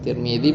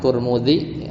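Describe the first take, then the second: First: The name is said with i vowels: Tirmidzi. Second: The name is said with u vowels: Turmudi. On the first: "atau Tirmidzi biasanya" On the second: "bacanya bisa dua"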